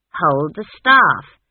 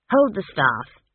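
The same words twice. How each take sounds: First: "Hold the staff" slow and loud, "staff" punched; insistent repeat. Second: Said in the usual way. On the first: Acted. Granny orders Esk to take "staff", loud and insistent. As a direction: spell out "staff" slowly and forcefully.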